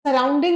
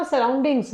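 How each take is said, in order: First: Said in the usual way. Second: "सराउंडिंग्स" closed with an s; plural ending sounded. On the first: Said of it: "नहीं होता". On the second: Shown as a demonstration. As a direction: give "सराउंडिंग्स" as the correction, final s audible. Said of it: "सराउंडिंग नहीं होता".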